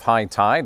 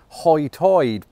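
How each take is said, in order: First: Both vowels use the standard 'eye' sound. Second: Both vowels are rounded toward an 'oy' sound.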